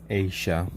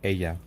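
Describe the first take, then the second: First: The double L is sounded like a 'sh'. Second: The double L is sounded like a 'y'. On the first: "kind of like with an S A S H" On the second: "double L's kind of pronounced like a E"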